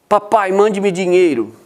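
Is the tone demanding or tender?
demanding. It sounds rude and demanding.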